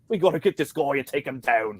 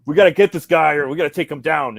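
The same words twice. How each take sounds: First: Said in the usual way. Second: Higher, louder gung-ho knight call; rally the men, loud and cocky; ballsy knight. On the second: Retold or imitated. Knight rallying his men, loud ballsy call. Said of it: "he's like".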